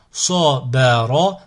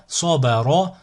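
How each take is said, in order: First: Slow, each syllable drawn out separately; split into syllables. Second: Syllables joined as one word. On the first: Teacher models a word for learners to repeat, split into syllables. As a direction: cut the word up, pausing between syllables. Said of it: "décomposer le mot". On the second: Teacher models a word for learners to repeat, joined in one go. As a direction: run the syllables together without pauses. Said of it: "le mot attaché". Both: Shown as a demonstration.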